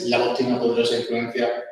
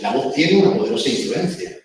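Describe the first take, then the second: First: It sounds flat and mechanical, like a robot. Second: It sounds natural, with the phrase ending low. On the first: The speaker calls it wrong. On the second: The speaker calls it right.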